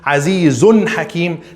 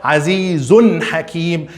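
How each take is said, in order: The two takes are said the same way.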